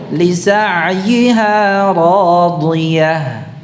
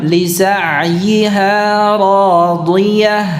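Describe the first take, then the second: The two takes are said the same way.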